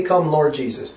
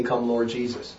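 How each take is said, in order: First: Said in the usual way. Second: Much softer, dropped low and quiet; quiet reverent repeat; hushed. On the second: Shown as a demonstration. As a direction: let "Come, Lord Jesus" fall to a near hush. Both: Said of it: "What does that imply when we say".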